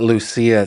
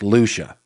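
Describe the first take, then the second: First: The name is said with a Spanish pronunciation. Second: The name is said with a non-Spanish pronunciation. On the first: The speaker calls it wrong. "it's not Lucia ... doing the whole Spanish pronunciation" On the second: The speaker calls it right. "It's Lucia"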